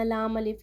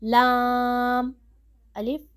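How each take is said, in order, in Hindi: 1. दोनों नामों को जल्दी-जल्दी एक साथ जोड़कर पढ़ा जाता है। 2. दोनों नामों के बीच थोड़ा सा ठहराव है। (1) "हमने जल्दी जल्दी नहीं पढ़ना" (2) "थोड़ा ठहर के, मतलब आपका सांस जारी रहे लेकिन आपने अपनी आवाज़ रोक देनी है"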